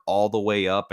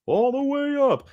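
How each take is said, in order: First: Said in the usual way. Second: Very high, drawn-out falsetto; silly high voice. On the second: Pretend. Streamer hyping the show, silly high falsetto. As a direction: squeal it slowly in a put-on voice. Echoes own phrase in silly voice.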